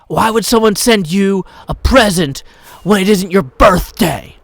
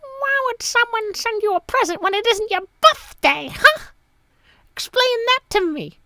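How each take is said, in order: First: A hint of an angry child, louder; light take on a whiny kid; angry five-year-old. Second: Very high squeaky put-on kid voice; angry seven-year-old. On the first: Dad imitating his daughter's complaint, mild angry kid voice. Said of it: "my best angry five-year-old voice". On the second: Dad trying his daughter's voice again, high and whiny. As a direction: play a bratty demanding child. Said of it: "what would an angry seven-year-old voice be like?".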